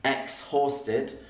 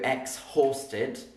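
First: The H sound is clearly pronounced. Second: The same.

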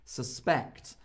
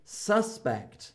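First: The stress is on the second syllable. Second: The stress is on the first syllable. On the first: It is a verb: to think someone did something. "The stress is on the second half because it's a verb" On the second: It is a noun: a person thought to have done something. "whereas he is a suspect"

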